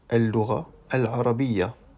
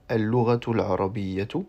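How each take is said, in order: First: Both words end without their final syllables. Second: Both words end with their final syllables pronounced. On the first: "on pourrait dire tout simplement" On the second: "qui se dit en arabe al-lughatu al-arabiyyatu"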